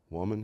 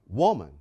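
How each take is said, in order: First: Gentle address. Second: Short, sharp, falling woman; curt dismissive. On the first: Retold or imitated. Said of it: "he said". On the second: Shown as a demonstration. Husband to wife, the mistaken dismissive way. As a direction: snap out Woman like a rebuke. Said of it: "in the way that a few of us men have at times mistakenly said".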